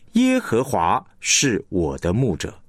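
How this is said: The stress falls on 耶和华. "你会强调耶和华"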